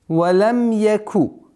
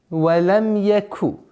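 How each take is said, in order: Both takes have the same delivery.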